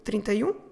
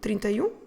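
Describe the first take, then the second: No difference in how they are said.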